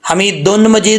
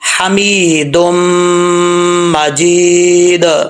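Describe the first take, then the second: First: The first word ends with an n sound. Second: The first word ends with an m sound. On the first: The speaker calls it wrong. "हमीदुन मजीद नहीं पढ़ना" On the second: The speaker calls it right. "अब दाल को मीम के साथ मिलाएंगे"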